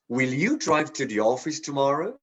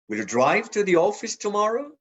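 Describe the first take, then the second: First: The stress falls on the word you. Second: The stress falls on the word drive. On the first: The question is about this person specifically. "emphasize the you" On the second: The question is about driving rather than taking the bus. "drive, not take the bus"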